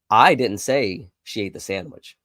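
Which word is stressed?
I. The word "I" carries the main stress. Someone else said it. "It must have been somebody else that said it"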